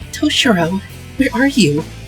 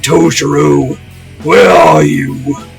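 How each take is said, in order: First: It is said in Eri's voice. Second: It is said in Shadow Toshiro's voice.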